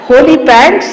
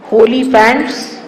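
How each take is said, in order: First: Holy pants called out louder and higher, rising on pants; exclaimed. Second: Holy pants said slowly, each syllable of holy drawn out; spelled out carefully. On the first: Naming the punk shop item for the listener, loud and high. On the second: Recalling the punk shop sign in Rome, slow and careful. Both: Shown as a demonstration. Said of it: "holy, H O L Y".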